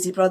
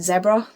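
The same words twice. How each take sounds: First: The word is said the American way. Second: The word is said a non-American way.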